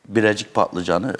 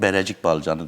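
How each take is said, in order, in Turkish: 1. Standart Türkçe telaffuzuyla söyleniyor. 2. Antep ağzı telaffuzuyla söyleniyor.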